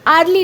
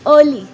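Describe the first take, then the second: First: The first vowel is an open 'ar' sound. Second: The first vowel is an 'er' sound. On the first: The speaker calls it wrong. "नुह" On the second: The speaker calls it right. "तार pronunciation कौन"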